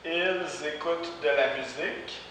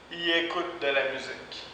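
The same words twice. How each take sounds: First: Said in the usual way. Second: "Ils" said as "i", no L or S; spoken i écoutent. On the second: Shown as a demonstration. Teacher models spoken "Ils écoutent de la musique". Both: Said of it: "ça va faire".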